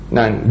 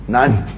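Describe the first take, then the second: First: "None" breathed out through a laugh, whispered; "None" said as a soft, laughing whisper; whispered laughing repeat. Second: Said in the usual way. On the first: Shown as a demonstration. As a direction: laugh the word "None" away under your breath.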